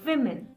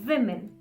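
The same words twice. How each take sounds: First: It sounds like the plural women. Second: The same.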